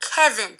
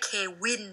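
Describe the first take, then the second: First: The name is pronounced the English way. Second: The name is pronounced the Thai way. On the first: The speaker calls it right. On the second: The speaker calls it wrong. "ไม่ใช่เควินนะคะ"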